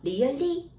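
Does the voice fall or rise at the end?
rise. The pitch rises at the end. The speaker calls it wrong. "really 이렇게 하면 안 돼"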